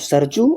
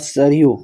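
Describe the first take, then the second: First: The middle consonant is a 'j' sound. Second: The middle consonant is a 'y' sound. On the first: This is how people commonly say it. The speaker calls it wrong. "सरजू नहीं, ऐसे लोग बोलते हैं सरजू" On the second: This is the form that was taught. The speaker calls it right. "मैंने वहां पर बोला था सरयू"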